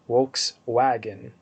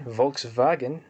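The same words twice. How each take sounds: First: It is said with a Latin pronunciation. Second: It is said with a German pronunciation. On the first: "in Latin" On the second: "in German"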